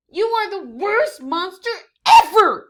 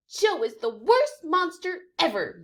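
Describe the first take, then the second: First: Very loud, much higher yell; furious shout. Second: Higher, milder yip; yipping complaint. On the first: Fifi splattered by Joe, furious yelling. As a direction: scream it at him. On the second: Fifi complaining about Joe, milder. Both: Acted.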